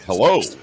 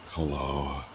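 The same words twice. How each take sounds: First: The voice sounds clear and alert. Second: The voice sounds groggy and sleepy. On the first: The speaker is fully awake. "If I'm awake, it's more like" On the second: The speaker has just woken up. "The moment that I'm waking up without without notice, it's more like"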